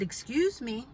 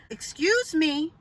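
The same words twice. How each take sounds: First: Composed, polite excuse me; calm good-girl voice. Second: "Excuse me" drawn out slow and high; more emphasis. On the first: Calling up to the neighbor about water, calm and polite. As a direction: keep it calm and unforced. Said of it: "My calm, [name] voice". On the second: Calling up to the neighbor again, slow and emphatic. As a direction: lean on "Excuse me", higher and slower, still composed. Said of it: "with a little bit more emphasis". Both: Retold or imitated.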